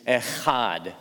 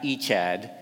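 First: The 'ch' sound is guttural, from the throat. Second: The 'ch' sound is plain, without throat friction. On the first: The speaker calls it right. "It's like that guttural sound" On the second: The speaker calls it wrong. "it's not Echad"

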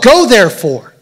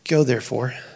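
First: It is said forcefully, with authority. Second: It is said casually, without force. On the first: Going is a firm command backed by authority. The speaker calls it right. "No, he's like, no" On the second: Going is optional. The speaker calls it wrong. "Do you think Jesus said it like this? ... If you feel like it"

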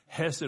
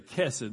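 First: The word begins with a soft h sound. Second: The word begins with a hard k sound. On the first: "that's the best I can do" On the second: "or you could even say kesed, but it's, that's not correct"

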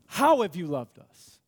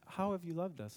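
First: It sounds doubtful and bitterly skeptical. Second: It sounds sincere and openly curious. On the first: They doubt that God has loved them at all. The speaker calls it right. "That's the tone of the people here" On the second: They genuinely want God to show them. The speaker calls it wrong. "That's not the tone"

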